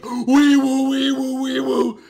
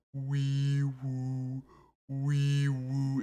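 First: Very high, loud frantic wee woo; screaming panicked vocal siren. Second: Quiet, slightly high wee woo; gentle vocal siren; soft siren noise. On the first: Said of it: "starts to panic and goes". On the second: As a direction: hum a calm little siren. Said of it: "similar to how SpongeBob did earlier". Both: Retold or imitated.

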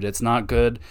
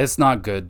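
First: "good" held and leaned on in "It's not good."; stress on good. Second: "not" leaned on in "it's not good"; stress on not. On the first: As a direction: let "good" carry the weight, "not" light. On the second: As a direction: press on "not", "good" left light. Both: Real, not acted.

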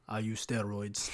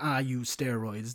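First: Put-on slow, low, soft Russian-sounding accent; badly faked German accent, more Russian; German slipping into Russian. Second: Put-on slow, heavy German-style accent; big German guy's accent. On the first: Big gym guy admitting steroids, low Russian-style accent. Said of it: "That was, like, more Russian". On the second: Big gym guy admitting steroids, rough German accent. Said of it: "that big guy who's like".

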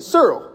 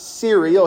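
First: "Cereal" said as "SER-ul", two syllables; Mississippi cereal. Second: Said in the usual way. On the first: Retold or imitated. Preacher imitating his daddy's Mississippi "Cereal", said "SER-ul". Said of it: "He said". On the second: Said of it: "You know what I mean by s".

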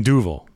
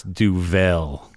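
First: Duvel as DOO-vul, weak second syllable; corrected Duvel. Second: Duvel as doo-VELL, with a full "vell"; second-syllable Duvel. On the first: Host correcting himself on the beer name, Duvel as DOO-vul. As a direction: say Duvel with the end reduced to "vul". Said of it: "I mean, Duvel". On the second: Host stating his belief by mistake, Duvel as doo-VELL. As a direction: lean on the end of Duvel, a clear "vell". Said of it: "But I believe it's Duvel". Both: Shown as a demonstration.

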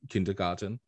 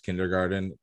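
First: KINDERGARTEN with an Austrian accent, R's dropped; Arnold's German-accented pronunciation. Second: Said in the usual way. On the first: Shown as a demonstration. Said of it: "Arnold never pronounced kindergarten as in". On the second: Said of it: "never pronounced kindergarten".

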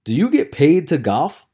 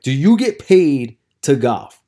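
First: Pointed challenge. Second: "Do you get paid to golf" slow and loud; "get paid to golf" drawn out, forceful challenge; emphatic repeat. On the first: Retold challenge, first asking. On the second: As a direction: spell out "Do you get paid to golf" for someone not getting it. Retold challenge, repeated slower after "What?. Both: Retold or imitated.

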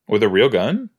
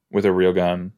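First: "gun" lifted in a rising question; incredulous question rising on "gun". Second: Said in the usual way. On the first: Real, not acted. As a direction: ask it, pitch climbing on "gun". Asks, then repeats as a statement.

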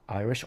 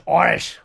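First: Said in the usual way. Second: "Irish!" yelled high and loud across a rugby pitch; shouted nickname. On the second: Retold or imitated. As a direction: call out "Irish!" like a teammate wanting the ball. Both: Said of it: "they used to call me".

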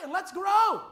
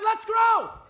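First: Shouted, higher rally to grow; loud call. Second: Even louder and higher, ringing shout; stronger repeat. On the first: Pastor urging the church forward, loud rallying call. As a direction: lift it up as a call. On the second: Pastor restating his call to the flock, full ringing shout. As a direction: repeat it bigger, driving it home. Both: Acted. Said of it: "I said".

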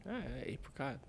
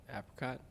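First: Apricot said AY-pricot; apricot as AY-pricot, the first A long. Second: Apricot said AP-ricot; apricot as AP-ricot, the first A short as in cat. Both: Shown as a demonstration. Answering which pronunciation is right. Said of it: "Apricot or apricot?".

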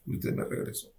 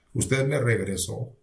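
First: Whispered, barely voiced repeat; hushed prayer. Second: Said in the usual way. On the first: Patient praying to the Lord at night, whispered. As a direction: whisper it to God under your breath.

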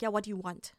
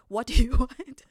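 First: Said in the usual way. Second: Mocking repeat, far louder with a laugh in it; indignant echo. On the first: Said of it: "just answer the phone and be like". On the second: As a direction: throw the line back, outraged and laughing. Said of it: "How can you ask me".

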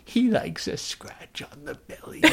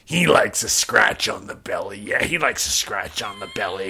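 First: High, slow, breathless creepy whisper. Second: Lower, softer doting murmur; low cooing husband. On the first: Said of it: "It's so creepy". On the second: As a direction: coo it to the dog, low. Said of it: "he goes". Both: Retold or imitated.

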